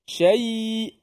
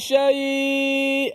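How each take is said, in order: First: The final y-glide is fully reached and held. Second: The final y-glide is cut short, not reached. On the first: The speaker calls it right. "Mesti tengah lidah kita ini berfungsi" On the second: The speaker calls it wrong. "Jangan syai. Tu belum sampai ya"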